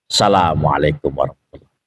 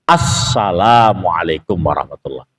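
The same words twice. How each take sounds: First: The greeting's sounds are clipped and run together. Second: Every sound of the greeting is clearly articulated. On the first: The speaker calls it wrong. "kalau salamnya kayak gitu nggak sah sholatnya" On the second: The speaker calls it right.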